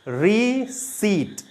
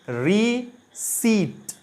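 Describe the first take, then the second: No difference in how they are said.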